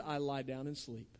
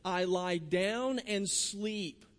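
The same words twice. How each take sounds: First: "I lie down and sleep." said low and soft; low, quiet scripture line; hushed quote. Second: Each word of "I lie down and sleep." stretched very slowly; very slow, calm scripture reading; slow, savoured quote. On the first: Preacher quoting David, hushed. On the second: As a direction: linger on "I lie down and sleep." as if easing into rest. Preacher quoting David, drawn out. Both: Shown as a demonstration.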